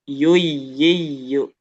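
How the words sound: The pitch rises on the doubled sound. The speaker calls it right. "Berarti dia banyak nih yang dinaikkan intonasinya"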